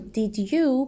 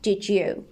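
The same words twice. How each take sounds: First: The two words are said separately and clearly. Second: The two words run together quickly and smoothly.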